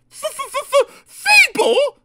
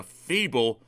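First: Stuttered f-f-f, then a high, loud burst; spluttering outrage. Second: Said in the usual way. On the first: A narrator's reading. Daisy echoing the shunter's insult, spluttering. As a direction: splutter the word back, affronted. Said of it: "spluttered Daisy".

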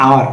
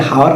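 First: আওয়ার starting straight on the vowel; silent h. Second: হাওয়ার with the h voiced at the start; h sounded. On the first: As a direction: say আওয়ার with no h sound at all. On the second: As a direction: say হাওয়ার with an audible opening h. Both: Shown as a demonstration. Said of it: "উচ্চারণ করি কি আওয়ার".

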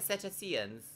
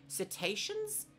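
First: "Cetaceans?" retried as SET-ay-see-ən, level and quick; second try at pronunciation. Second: "cetaceans?" said slowly as sih-TAY-shunz with a rising, doubtful tune; unsure pronunciation. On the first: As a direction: have another go at "Cetaceans?" with a different stress. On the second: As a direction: test out "cetaceans?" carefully, asking. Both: Shown as a demonstration. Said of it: "Is that how you say that?".

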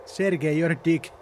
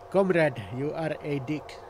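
First: Said in the usual way. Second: Slow mock-Russian accent; deliberate, slowed-down fake Russian accent. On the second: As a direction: put on a rough comic Russian accent. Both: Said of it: "racist impression there of a Russian accent".

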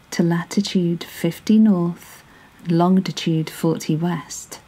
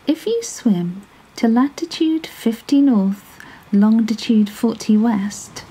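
First: Said in the usual way. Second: Higher, sly little fish giving directions; the clever fish slyly tells the whale where to swim; small 'stute voice. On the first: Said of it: "narration repeats the directions". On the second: A narrator's reading. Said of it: "said the 'stute fish".

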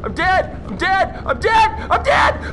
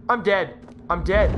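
First: Building to a high panicked yell; mounting panic. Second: Low, subdued dread; resigned dread. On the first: Player about to die, mounting panic. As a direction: repeat higher and louder each time. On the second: Player facing death in game, low dread. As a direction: say it low, as if finished. Resigned before panic builds. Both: Real, not acted.

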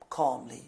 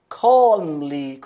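First: Soft demo of Calmly with a falling end. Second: Said in the usual way. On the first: Shown as a demonstration. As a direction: say Calmly quietly and gently, dropping the voice. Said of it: "آره آروم". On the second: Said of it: "Calmly یعنی چی؟".

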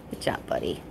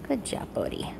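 First: Soft breathy whisper of praise. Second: Said in the usual way. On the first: Real, not acted. Trainer whispering praise to her dog during training. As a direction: whisper it so as not to break focus.

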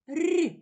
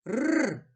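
First: "р" as a palatalised trill, higher pitched; soft r sound. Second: "Р" as a lone hard trill; hard r sound. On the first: Teacher comparing first sounds for a child, soft r. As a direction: roll a soft, higher "р" as before і. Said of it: "Він м'який". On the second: Teacher comparing first sounds for a child, hard r. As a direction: roll a hard, non-palatalised "Р". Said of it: "Він твердий". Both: Shown as a demonstration.

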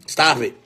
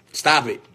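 Both takes have the same delivery.

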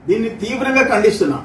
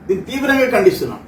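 The two takes are said the same way.

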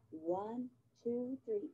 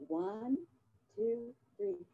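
Both takes have the same delivery.

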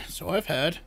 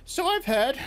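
First: Quieter wheeze, trailing off; softer wheezing crone. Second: Put-on high, wheezy old crone voice; wheezing old crone. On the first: Acted. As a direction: wheeze the echo more softly. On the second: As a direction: wheeze it like an ancient witch. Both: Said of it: "wheezed the old woman".

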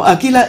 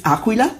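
First: Aquila with a plain "k", no w; anglicised Aquila, "qu" sounded as k; common international pronunciation. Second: Aquila with a clear "kw" sound; Italian Aquila, the "qu" sounded as kw; correct Italian pronunciation. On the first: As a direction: say Aquila as a-KEE-la. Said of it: "is how it is pronounced in the whole world". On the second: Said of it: "the correct pronounce is". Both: Shown as a demonstration.

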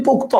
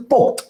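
First: পোক্ত said pok-to, with final o; পোক্ত in two syllables, pok-to; final vowel sounded. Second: পোক্ত said pokt, ending on t; পোক্ত as one syllable, pokt; no final vowel. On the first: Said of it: "উচ্চারণটা actually পোক্ত না". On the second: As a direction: drop the o after the t in পোক্ত. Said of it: "ত এর উচ্চারণটার পরে অ নাই". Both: Shown as a demonstration.

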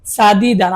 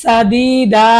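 First: সাদিদান with final n sounded; original form. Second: সাদিদা with final n dropped, long a; pausal reading. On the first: Teacher shows the unpaused form সাদিদান. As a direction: say সাদিদান ending clearly on n. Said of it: "মূলত ছিল কি?". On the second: Teacher shows the pausal reading সাদিদা. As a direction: end সাদিদা on a stretched a, no n. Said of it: "আমরা পড়বো". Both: Shown as a demonstration.

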